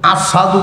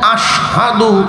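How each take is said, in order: First: The word is said with a plain 's' sound. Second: The word is said with a clear 'sh' sound. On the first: The speaker calls it wrong. "আশহাদুর শিন উচ্চারণ হইল না, আসাদু কইতো" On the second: The speaker calls it right. "এই যে আশহাদু"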